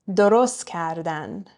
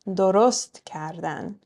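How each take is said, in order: The two takes are said the same way.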